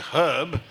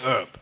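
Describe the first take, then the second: First: It is said with a standard British pronunciation. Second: It is said with a Cockney pronunciation. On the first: "in English, for example, you say herb" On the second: "only a Cockney, who's not very well educated, would say herb"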